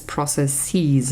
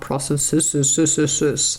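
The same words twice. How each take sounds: First: "processes" said the right way, with the stress and vowels as in plain speech; correct pronunciation. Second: "processes" said slowly in a wrong, odd way, drawn out and stretched; wrong pronunciation. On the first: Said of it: "the word is processes". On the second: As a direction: mispronounce "processes" slowly and deliberately. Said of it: "not processes". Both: Shown as a demonstration.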